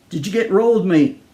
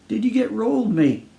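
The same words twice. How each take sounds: First: Put-on a touch of Australian accent, calling out; lightly voiced Aussie stranger calling to a man. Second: Put-on a touch of Australian accent, calling out once more; lightly voiced Aussie stranger calling again. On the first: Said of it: "A tall Australian called out". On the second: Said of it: "A tall Australian called out again".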